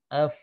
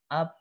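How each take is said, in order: First: Upper teeth touch the lower lip for the sound. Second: Both lips press together for the sound. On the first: The speaker calls it right. "ujung gigi seri atas tempelkan, ya, menyentuh, menyentuh bibir bawah" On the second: The speaker calls it wrong. "bukan bibir atas dengan bibir bawah begini ... ini salah"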